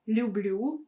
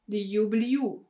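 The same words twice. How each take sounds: First: The l is softened with no separate y glide. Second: A separate y glide is inserted after the l. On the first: The speaker calls it right. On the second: The speaker calls it wrong.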